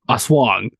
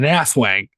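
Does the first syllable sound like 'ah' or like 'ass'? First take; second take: ah; ass. First: The first syllable is a plain 'ah'. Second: The first syllable sounds like 'ass'. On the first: It is the real pronunciation. The speaker calls it right. "think it's really pronounced a swang" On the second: It is said that way to be funny. The speaker calls it wrong. "How I like to pronounce it"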